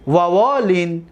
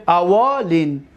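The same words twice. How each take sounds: First: ووالین drawn out slowly with both waws sounded, wa-wa-lin; original underlying form. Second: اوالین with the first waw turned to a glottal a, a-wa-lin; actual spoken form. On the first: Teacher to students, slow demo of ووالین with both waws. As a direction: say ووالین carefully, stressing the doubled w at the start. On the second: Teacher to students, giving the real form اوالین. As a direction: say اوالین smoothly, opening on a plain vowel with no w. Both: Shown as a demonstration.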